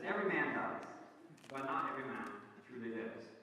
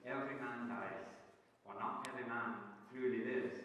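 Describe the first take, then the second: First: Put-on Scottish accent. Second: Said in the usual way. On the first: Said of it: "Now, you don't need a Scottish accent, but it does help". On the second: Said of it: "in that great Scottish accent".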